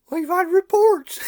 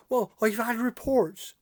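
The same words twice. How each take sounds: First: Mock-stern policeman insisting; louder emphatic repeat. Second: Said in the usual way. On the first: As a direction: pitch jumps up, pressed harder. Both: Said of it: "He says".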